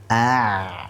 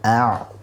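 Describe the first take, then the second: First: The first syllable is held before the next. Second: The first syllable is rushed into the next. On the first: The speaker calls it right. "fokus dulu ain" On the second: The speaker calls it wrong. "jangan buru-buru mengucapkan to"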